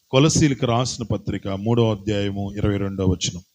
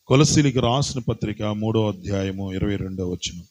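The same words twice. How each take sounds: The two takes are said the same way.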